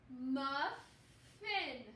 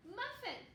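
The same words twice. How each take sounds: First: Muffin stretched slowly, syllable by syllable; slow sounding out. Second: Muffin said clearly higher and quick; happy finished word; bright model word. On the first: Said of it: "Here we go". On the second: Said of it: "Like a little muffin". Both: Shown as a demonstration.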